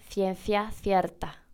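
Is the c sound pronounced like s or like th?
th. The c sounds are pronounced like th. This is how someone from Spain may say it. "en español por ahí nos dice"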